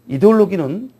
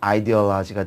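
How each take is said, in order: First: It starts with 'ide' and ends with 'logi'. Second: It starts with 'aidi' and ends with 'laji'. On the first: "독일어 발음이죠" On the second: "영어로는"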